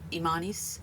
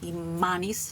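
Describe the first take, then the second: First: The M sound is short, single. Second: The M sound is held long, doubled. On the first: The speaker calls it wrong. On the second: The speaker calls it right.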